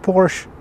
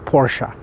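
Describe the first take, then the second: First: It sounds like the word porch. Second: It does not sound like the word porch. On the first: The speaker calls it wrong. "Porsche is something you sit on" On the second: The speaker calls it right. "Porsche is the correct pronunciation"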